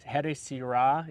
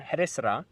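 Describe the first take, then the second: First: A full vowel is heard between s and r. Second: The s runs straight into the r. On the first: The speaker calls it wrong. "You don't want to say here sira" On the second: The speaker calls it right. "You want to say here sra"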